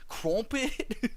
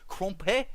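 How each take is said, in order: First: "Crumpet" in a mock British accent, final T sounded; British crumpet attempt. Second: "Crumpet" in mock British, ending without the T; dropped T. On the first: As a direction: try "Crumpet" in British, keeping the T. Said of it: "How do you say crumpet?". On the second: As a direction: say "Crumpet" as "crom-peh". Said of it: "you don't say your T's". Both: Shown as a demonstration.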